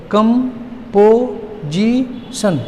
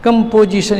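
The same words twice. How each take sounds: First: "composition" very slowly, four drawn-out beats with gaps; broken into syllables. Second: Said in the usual way. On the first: Shown as a demonstration. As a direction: pull "composition" apart, holding each syllable. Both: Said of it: "इसको तोड़ दीजिए आप".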